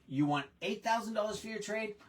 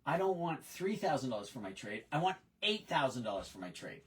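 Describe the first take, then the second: First: "You want eight thousand dollars for your trade?" repeated back higher, with a questioning lift on "thousand"; echoing question. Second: A lightly voiced stubborn customer, flat and firm on "eight thousand"; voicing a customer. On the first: Retold or imitated. Salesperson repeating the customer's price back to him, mild raised question. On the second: Salesman voicing the customer who wants more for the trade, firm statement. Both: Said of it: "think like a customer".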